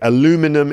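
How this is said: It is said with an American pronunciation. "in America"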